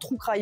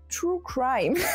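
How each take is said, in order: First: It is said with a French accent. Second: It is said with an attempted English accent. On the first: "je dis vraiment true crime ... je le prononce comme ça de base" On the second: "alors attention les oreilles ... Mon accent anglais est pourri ... j'ai fait un effort"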